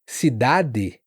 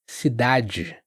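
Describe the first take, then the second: First: The last d is a hard d. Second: The last d is like an English j. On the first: It sounds like another region or European Portuguese. "com D duro" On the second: It sounds like most of Brazil. "muitos vão falar cidade"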